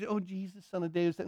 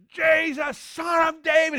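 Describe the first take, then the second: First: Very soft, quick murmur; feeble, half-hearted call. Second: High-pitched full-out shout; yelling. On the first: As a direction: demonstrate crying out with no intensity. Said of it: "Don't, don't do". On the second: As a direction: cry out over a noisy crowd. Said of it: "He's just yelling this. Top of his lungs". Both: Shown as a demonstration.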